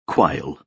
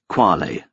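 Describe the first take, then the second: First: It sounds like the bird name quail. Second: It does not sound like the bird name. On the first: The speaker calls it wrong. "not quail" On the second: The speaker calls it right. "pronounced quale"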